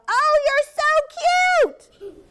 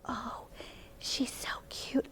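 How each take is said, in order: First: It is said loudly. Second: It is said quietly.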